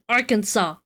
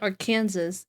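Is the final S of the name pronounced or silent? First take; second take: silent; pronounced. First: The final S sound is silent. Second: The final S sound is pronounced. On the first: "I know it's freaking Arkansas. Where did the final S go?" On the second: "I want to call it Arkansas every freaking time"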